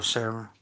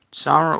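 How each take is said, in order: First: "Sarah" as SAIR-uh; "Sarah" rhyming with Clara as "CLAIR-uh"; second name variant. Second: "Sarah" as SAH-ruh; "Sarah" rhyming with Lara; first name variant. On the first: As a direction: say "Sarah" with an "air" first vowel. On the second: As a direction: say "Sarah" with an open "ah" first vowel. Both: Shown as a demonstration. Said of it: "Sarah or Sarah".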